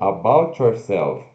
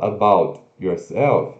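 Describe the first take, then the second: First: The T and Y blend into one sound. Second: The T and Y sounds stay separate. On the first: The speaker calls it right. "a gente vai falar algo como about yourself" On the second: The speaker calls it wrong. "Ao invés de falar about yourself"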